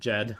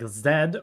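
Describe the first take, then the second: First: The name begins with a J sound. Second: The name begins with a Z sound. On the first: This is how Koreans say it. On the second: This is the English pronunciation.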